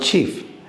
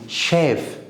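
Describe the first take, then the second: First: It starts with a ch sound and long ee. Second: It starts with a sh sound and short e. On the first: The speaker calls it wrong. "It's not chief" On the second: The speaker calls it right. "it is chef"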